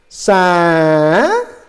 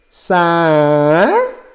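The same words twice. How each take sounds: No difference in how they are said.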